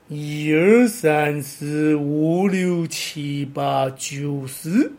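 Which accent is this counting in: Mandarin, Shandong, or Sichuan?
Sichuan. Most numbers use rising or dipping tones, never falling. "四川话……多半是2 声3 声，所以念起来会是"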